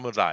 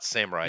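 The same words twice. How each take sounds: First: The middle consonant sounds close to an L. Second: The middle consonant is an English R sound. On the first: The speaker calls it right. "It's an L. It's not an R" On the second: The speaker calls it wrong. "many people say samurai, right? But it's not samurai"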